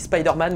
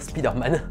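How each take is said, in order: First: The name is said with English pronunciation. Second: The name is said with French pronunciation. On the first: "Depuis le début, je dis Spider-Man, mais ça me gave" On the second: "je vais le prononcer à la française"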